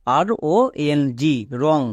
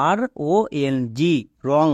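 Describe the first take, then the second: First: Slow spelling out. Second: Said in the usual way. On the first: Shown as a demonstration. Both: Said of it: "তাহলে এর উচ্চারণ কি দাঁড়াবে?".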